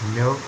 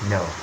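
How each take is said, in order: First: The word is said with a British vowel. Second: The word is said with an American vowel. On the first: "didn't say as no" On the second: "in American accent, ... but no"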